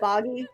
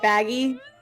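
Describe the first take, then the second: First: The first vowel sounds like the one in 'bog'. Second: The first vowel sounds like the one in 'bag'. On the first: The speaker calls it right. "instead of boggy" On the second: The speaker calls it wrong. "I keep pronouncing it baggy"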